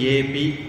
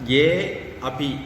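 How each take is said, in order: First: The two words merge into one word. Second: The two words are said separately.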